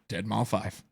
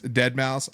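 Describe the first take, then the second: First: The name ends with the number five spoken. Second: The name ends with mouse, no number spoken. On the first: The speaker calls it wrong. "in my head, it is absolutely" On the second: The speaker calls it right. "I speak it correctly"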